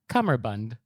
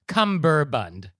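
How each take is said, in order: First: It has an m sound and ends in d. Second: It has a b sound and ends in d. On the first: The speaker calls it right. "the correct pronunciation is cummerbund" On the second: The speaker calls it wrong. "it's not cumberbund"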